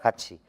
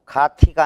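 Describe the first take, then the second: First: The second syllable starts with a ch sound. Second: The second syllable starts with a t sound. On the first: The speaker calls it right. "티읕이 치읒으로" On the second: The speaker calls it wrong. "가티가 아니라"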